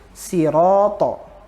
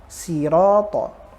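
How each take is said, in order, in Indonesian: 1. Konsonan itu dilafalkan tipis. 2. Konsonan itu dilafalkan tipis.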